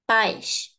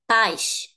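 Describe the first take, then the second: First: The stress falls on the vowel a. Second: The same.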